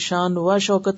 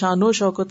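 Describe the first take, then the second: First: A separate 'wa' sits between the two words. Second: An '-o' is joined onto the first word. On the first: The speaker calls it wrong. "नहीं कहते" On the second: The speaker calls it right. "कहते हैं"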